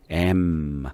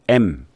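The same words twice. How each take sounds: First: The word is relaxed with a lingering final m. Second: The word is cut short, Korean style. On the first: The speaker calls it right. "영어는 좀 여유 있게" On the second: The speaker calls it wrong. "짧게 우리나라 말소로 M 이렇게 짧게 하지 마세요"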